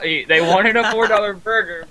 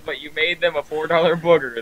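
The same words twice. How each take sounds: First: Said in the usual way. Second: Falling line ending on "booger", not burger. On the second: Retold or imitated. Friend repeating the clerk's joke, burger said as "booger". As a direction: swap burger for "booger", vowel like book.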